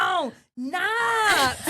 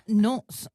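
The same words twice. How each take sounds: First: "nuts" said as "nats", high; drawn-out realisation, NUTS rhyming with "hats"; NUTS with an A sound. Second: Said in the usual way. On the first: Retold or imitated. Shop worker finally understanding, saying NUTS as "nats". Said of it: "But then he was like". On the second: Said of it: "I was looking for nuts".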